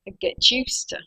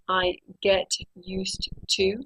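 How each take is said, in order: First: The words run together in connected speech. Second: Each word is said separately and fully. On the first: The speaker calls it right. "I say ... all the words go together, and this is called connected speech" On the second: The speaker calls it wrong. "I don't say"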